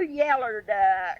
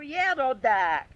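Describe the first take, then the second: First: The color word ends with an 'er' sound. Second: The color word ends with an 'oh' sound. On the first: The speaker calls it wrong. "it's I had a little yeller duck" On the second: The speaker calls it right. "it's not yellow duck, it's yellow"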